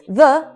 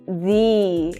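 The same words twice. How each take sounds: First: The vowel is short, with no y sound. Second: The vowel is long, with a y sound. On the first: "Normally we say the" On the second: "It's made longer, and there's an intruding y sound"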